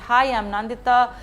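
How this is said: It sounds flat and unenthusiastic.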